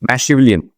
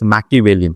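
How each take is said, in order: First: The second consonant is an 'sh' sound. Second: The second consonant is a 'k' sound. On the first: The speaker calls it wrong. "इसकी मैं pronunciation थोड़ी सी गलत हो जाती है" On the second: The speaker calls it right. "Yes, the pronunciation is मैकिवेलियन"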